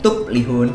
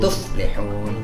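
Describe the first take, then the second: First: The middle consonant is a p sound. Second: The middle consonant is an f sound. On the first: The speaker calls it wrong. "Enggak boleh" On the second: The speaker calls it right. "Fa tuh kayak wala taqul lahuma uff"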